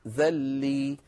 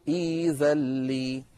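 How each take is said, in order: First: A glottal stop follows the opening vowel. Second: The opening vowel is lengthened with no glottal stop. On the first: The speaker calls it wrong. "الهمزة ساكنة، عندما نبدأ بهذا الفعل يصير ذلي" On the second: The speaker calls it right. "فنبدل الهمزة الساكنة ياء فيصير إيذلي"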